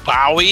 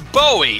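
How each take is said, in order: First: Bowie is said the way English speakers say it. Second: Bowie is said the usual American way. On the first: The speaker calls it wrong. "it's not [name]" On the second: The speaker calls it right. "It's Bowie"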